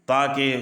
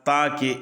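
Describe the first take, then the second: Both takes have the same delivery.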